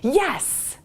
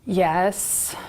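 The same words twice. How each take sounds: First: The word is said with excited enthusiasm. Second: The word is said flatly, without enthusiasm. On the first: The person clearly and eagerly agrees. The speaker calls it right. "She sounds really excited too" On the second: The person agrees but may not really want to. The speaker calls it wrong. "looks dejected, isn't enthusiastic about it"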